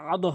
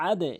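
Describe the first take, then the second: First: আদো with a rounded o ending, marked as wrong; wrong vowel ending. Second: আদে with a bouncing e ending, the right way; correct vowel ending. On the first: Teacher warning students against this reading, আদো with o ending. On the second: Teacher giving students the right reading, আদে with e ending. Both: Shown as a demonstration. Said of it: "আদো হবে না".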